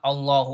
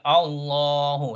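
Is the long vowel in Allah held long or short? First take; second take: short; long. First: The long vowel is cut short. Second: The long vowel is held for two counts. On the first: The speaker calls it wrong. "not Allahu Akbar" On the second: The speaker calls it right. "Allah is always pronounced with two harakat"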